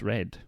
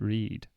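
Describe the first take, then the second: First: It is said with the past-tense pronunciation. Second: It is said with the present-tense pronunciation. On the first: The reading happened in the past. The speaker calls it right. "are you talking about the past? Well, then it's read" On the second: The reading happens now or habitually. The speaker calls it wrong. "You don't pronounce it read"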